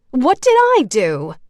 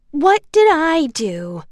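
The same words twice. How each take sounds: First: Higher, louder whiny protest; whining. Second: Higher, slow mimicking whine; high mocking voice. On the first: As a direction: complain like it's unfair. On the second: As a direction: parrot her back to ridicule her. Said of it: "a high, mocking voice said". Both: A narrator's reading.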